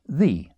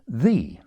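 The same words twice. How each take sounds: First: The word begins with a th sound. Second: The word begins with a th sound.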